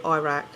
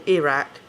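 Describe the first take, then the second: First: "Iraq" as EYE-rack; long "eye" opening on "Iraq"; American Iraq. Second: "Iraq" as ih-RACK; correcting to "Iraq" with a short I; British Iraq. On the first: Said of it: "I know you say Iraq". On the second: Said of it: "like we do in England". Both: Shown as a demonstration.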